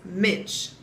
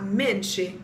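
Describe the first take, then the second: First: Minch cut off after the "ch"; final E dropped. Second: Menche with a clear "ee" at the end; final E pronounced. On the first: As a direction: say minch as one syllable, no final vowel. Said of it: "it's minch". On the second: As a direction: say menche as "min-chee". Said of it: "pronounce that last E". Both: Shown as a demonstration.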